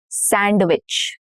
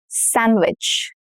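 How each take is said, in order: First: A d sound is pronounced in the middle. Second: No d sound is pronounced in the middle. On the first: The speaker calls it wrong. "not sandwich" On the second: The speaker calls it right. "No duh"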